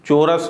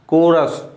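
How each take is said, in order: First: The word begins with a ch sound. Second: The word begins with a k sound. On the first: The speaker calls it wrong. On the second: The speaker calls it right.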